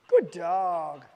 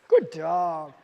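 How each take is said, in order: The two takes are said the same way.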